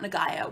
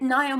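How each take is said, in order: First: The name is said with a hard g sound. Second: The name is said without a hard g sound. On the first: The speaker calls it wrong. "It's not Nagayo, which I thought it was" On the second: The speaker calls it right. "yes, that's how you say it"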